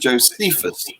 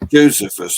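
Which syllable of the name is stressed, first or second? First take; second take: second; first. First: The stress is on the second syllable. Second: The stress is on the first syllable.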